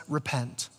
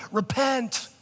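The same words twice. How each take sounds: First: "Repent" said much softer and lower, gently; compassionate. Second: "Repent" pitched higher, a mild mock condemning call; harsh sign guy. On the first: Retold or imitated. Preacher voicing Peter's gentle call to the crowd, soft and low. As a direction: breathe "Repent" as a tender invitation. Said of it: "one of the most compassionate things". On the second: Preacher mocking street-corner sign holders, mild harsh condemnation. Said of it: "the guys with the big signs".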